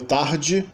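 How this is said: It is said with a Rio accent. "Rio de Janeiro"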